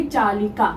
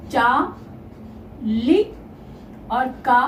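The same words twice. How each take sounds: First: Said in the usual way. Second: चा, लि, का with long pauses between; slow dictation of चा, लि, का in separate pieces; syllable-by-syllable build. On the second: Shown as a demonstration. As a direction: sound out चालिका one syllable at a time. Teacher sounds out चालिका in parts.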